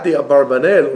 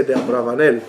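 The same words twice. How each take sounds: First: Abarbanel with a b, ab-AR-ba-nel; wrong pronunciation. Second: Abravanel with a v, ab-RA-va-nel; correct pronunciation. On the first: Teacher shows the common wrong form, Abarbanel. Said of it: "It's not the Abarbanel". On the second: Teacher gives the proper name, Abravanel. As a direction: say Abravanel the right way, with a v. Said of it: "that's the way you should say it". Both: Shown as a demonstration.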